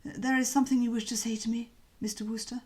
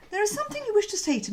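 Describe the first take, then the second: First: A lightly voiced cowed old Bassett; eager waiter tone, subdued; corrected Bassett voice. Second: Slipped into Bertie's higher voice by mistake; voicing the wrong character, pitched higher. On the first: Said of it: "wrong voice". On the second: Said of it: "ooh, sorry, wrong voice". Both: Shown as a demonstration.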